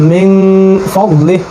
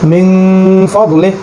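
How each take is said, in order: No difference in how they are said.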